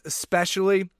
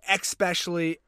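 First: No k sound comes before the s. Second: A k sound comes before the s. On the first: The speaker calls it right. "even though it's especially" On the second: The speaker calls it wrong. "They throw in it like a K between the E"

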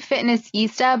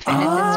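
First: The name ends with an 'eesta' sound. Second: The name ends with a 'sista' sound. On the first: "it's actually Fitness Easta" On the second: "a lot of people say Fitness Sista"

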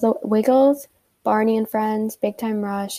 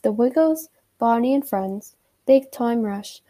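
First: It is said in her ordinary American accent. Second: It is said in a put-on British accent.

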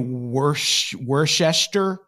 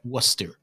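First: Every written syllable is pronounced in full. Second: The word is shortened to fewer syllables. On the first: "what is clearly Worcester" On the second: "In weird local Boston accents, like how what is clearly Worcester is like Worcester"

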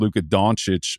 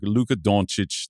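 First: The name has plain American English vowels and sounds. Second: The name has Slovenian-style vowels, O at the back. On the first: The name is adapted to English speakers. "Americanizing it by saying" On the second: The name is said accurately, as at home. "you do the French thing where you say the O in the back of your mouth"

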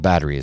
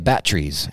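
First: It is said with the standard pronunciation. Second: It is said with an odd, folksy pronunciation. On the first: This is the usual way to say it. "instead of batteries" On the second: This imitates how a grandfather said it. "He would also say batteries"

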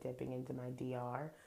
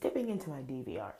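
First: The abbreviation is said without the V sound. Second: The abbreviation is said with the V sound. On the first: It sounds like the name of a country. The speaker calls it wrong. "I say that wrong every single week. I say like dipping into my DR. That's like the Dominican Republic" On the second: It refers to the video recorder. The speaker calls it right. "It's dipping into my DVR"

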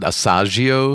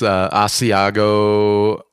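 First: The word is said as ah-sah-jee-oh. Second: The word is said as ah-see-ah-go. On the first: The speaker calls it wrong. "I think we pronounce it Asagio" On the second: The speaker calls it right. "we would pronounce Asiago"

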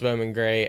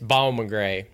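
First: It is said in the speaker's plain accent. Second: It is said in a local regional accent.

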